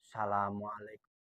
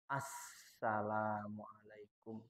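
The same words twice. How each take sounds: First: The s sound is short and single. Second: The s sound is held long and doubled. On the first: The speaker calls it wrong. "Jadi nggak boleh begini" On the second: The speaker calls it right. "Jadi yang benar"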